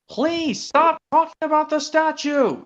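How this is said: It is said in a mildly stern tone.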